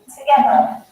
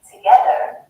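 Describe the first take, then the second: First: The ending is a soft British schwa, no R. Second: The ending is said with an American R. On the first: "in British English we say together" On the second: "like in American English saying together"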